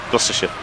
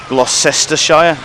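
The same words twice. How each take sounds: First: Several written syllables are dropped. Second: Every written syllable is pronounced. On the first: The speaker calls it right. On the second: The speaker calls it wrong.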